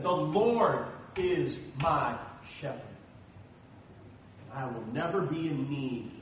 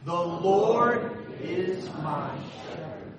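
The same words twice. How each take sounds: First: Slow, deliberate recitation, NEVER leaned on; slow, weighty quote. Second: Slow, drawn-out, chanted unison line; slow group recitation. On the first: Pastor closing on David's words, slow and deliberate. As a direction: let each word land slowly. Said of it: "David said". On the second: Pastor leading the church in a slow chanted recitation. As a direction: lead the congregation through it slowly. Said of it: "Say it with me". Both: Shown as a demonstration.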